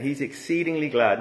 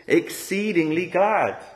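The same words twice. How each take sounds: First: Said in the usual way. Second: Exceedingly glad stretched slow and lifted high; emphatic glad. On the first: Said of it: "it's a big flip". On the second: Shown as a demonstration. Preacher showing Jonah's sudden joy, drawn out and raised. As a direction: lean hard into exceedingly glad, glad falling. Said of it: "But here he is".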